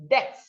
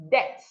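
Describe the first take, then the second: Both takes have the same delivery.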